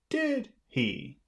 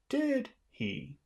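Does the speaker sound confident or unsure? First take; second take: confident; confident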